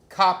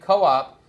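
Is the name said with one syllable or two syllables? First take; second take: one; two. First: It is said as one syllable, rhyming with pop. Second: It is said as two syllables, co-op. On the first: "Cop like pop" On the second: "like cooperation"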